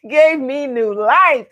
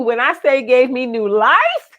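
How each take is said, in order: First: "gave me new life" slow, laughing on "gave"; emphatic repeat. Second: Said in the usual way. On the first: Shown as a demonstration. Telling viewers the bins revived her, slow laughing emphasis.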